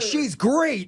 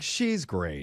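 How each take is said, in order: First: Great is said with lively, enthusiastic emphasis. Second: Great is said flatly, without enthusiasm. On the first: The speaker is romantically interested. "is good" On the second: The speaker only sees her as a friend. "but like she's great"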